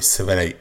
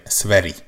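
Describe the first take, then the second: First: "Sveri" said with a different, more open final vowel; bizonytalan kiejtés. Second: "Sveri" ending in a clear i; corrected pronunciation. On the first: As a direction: try "Sveri" ending nearer an e. (bizonytalanul ejtett „Sveri”, e-s véggel) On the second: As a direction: land "Sveri" on a final ee sound. („Sveri” tiszta i-vel a végén) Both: Shown as a demonstration. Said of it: "mond-e nektek valamit az a név".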